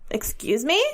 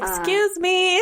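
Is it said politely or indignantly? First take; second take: indignantly; politely. First: It is said indignantly, rising at the end. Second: It is said in a polite, plain way.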